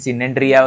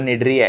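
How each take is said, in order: First: The word begins with an s sound. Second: The word begins with an n sound. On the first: The speaker calls it wrong. "सिनेंड्रिया वगैरह ऐसा कुछ भी मत बोलो" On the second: The speaker calls it right. "C is a silent here"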